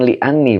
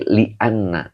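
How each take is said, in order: First: The word ends with an 'i' vowel. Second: The word ends with an 'a' vowel. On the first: The speaker calls it wrong. "bukan li'anni Pak" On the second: The speaker calls it right. "tapi li'anna"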